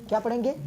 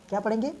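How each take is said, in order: The two takes are said the same way.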